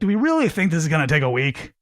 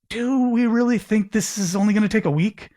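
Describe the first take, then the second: First: The question sounds doubting and accusatory. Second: The question sounds open and genuinely curious. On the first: The asker means to cause a problem. The speaker calls it wrong. "if you hear the difference in inflection" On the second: The asker wants to open a conversation. The speaker calls it right. "genuinely curious"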